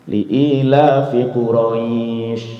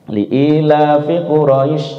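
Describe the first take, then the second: First: The end of Quraisy is drawn out long. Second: The end of Quraisy is cut short. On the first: The speaker calls it right. "Itu minimal dipanjangin dua" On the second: The speaker calls it wrong. "Kesalahannya ada di mana? Akhir ayat"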